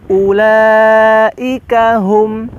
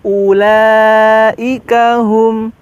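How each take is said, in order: Both takes have the same delivery.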